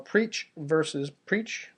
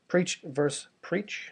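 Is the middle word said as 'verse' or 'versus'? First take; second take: versus; verse. First: The middle word has two syllables, 'versus'. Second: The middle word has one syllable, 'verse'. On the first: The speaker calls it wrong. "not verses" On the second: The speaker calls it right. "I should just say verse"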